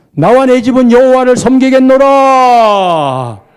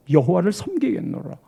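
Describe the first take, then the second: First: Slow, much louder, 여호와를 punched hard; proclaiming shout. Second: Said in the usual way. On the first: Retold or imitated. Joshua vows before the people, shouting slowly. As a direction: declare the vow at the top of your voice.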